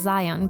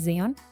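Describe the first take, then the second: First: The name is said with an English pronunciation. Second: The name is said with a Spanish pronunciation. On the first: The speaker calls it right. "it's actually supposed to be pronounced Zion" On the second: The speaker calls it wrong. "just mispronouncing it"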